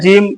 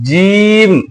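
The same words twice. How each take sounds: First: The letter name is said softly and loosely. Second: The letter name is said firmly and drawn out. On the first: The speaker calls it wrong. "जीम ऐसा नहीं बोलना है" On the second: The speaker calls it right. "थोड़ा सा सख्ती के साथ"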